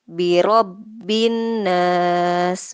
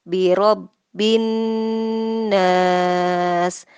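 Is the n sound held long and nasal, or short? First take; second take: short; held long. First: The n sound is short and not held. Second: The n sound is held long and nasal. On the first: The speaker calls it wrong. "bukan birobbin nas" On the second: The speaker calls it right. "n-nya itu ditahan, diperlama"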